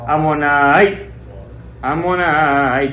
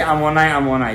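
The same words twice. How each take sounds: First: A clear stop separates the two words. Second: The two words run together without a stop. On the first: The speaker calls it right. "be very careful to make a stop between the two" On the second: The speaker calls it wrong. "Don't say ammonite, ammonite. Don't do that"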